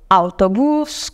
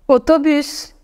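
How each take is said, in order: First: It is pronounced the Spanish way. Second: It is pronounced the French way. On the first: "usamos algunas palabras en español" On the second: "Ahora las voy a leer en francés"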